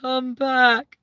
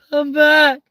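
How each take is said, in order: First: High, long call; high pleading call back. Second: Very high, loud call; high shouted call back; louder call. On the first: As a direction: call after them as they go. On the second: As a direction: shout it after them, falling. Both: Pretend. Calling after someone leaving.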